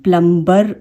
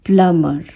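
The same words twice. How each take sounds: First: प्लम्बर with the b sounded in the middle; wrong version with b. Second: प्लमर said with no b after the m; silent b in plumber. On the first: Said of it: "इसे हम प्लम्बर नहीं कहते". (गलत उच्चारण, बी के साथ) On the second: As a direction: glide from m straight into the ending of प्लमर. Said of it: "इसका जो साउंड होता है". (सही उच्चारण, बी silent) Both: Shown as a demonstration.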